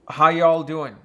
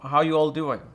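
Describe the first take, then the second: First: It is said in a Texas accent. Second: It is said in a California accent.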